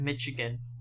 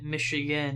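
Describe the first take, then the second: First: The middle consonant is a hard 'ch' sound. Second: The middle consonant is a soft 'sh' sound. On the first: It follows the usual English spelling sound. The speaker calls it wrong. "instead of" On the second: It reflects the French origin of the name. The speaker calls it right. "the way we pronounce it"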